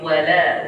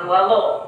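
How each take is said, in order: First: The l sound is light and thin. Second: The l sound is heavy and dark. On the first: The speaker calls it right. "tapi wala" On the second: The speaker calls it wrong. "bukan walau"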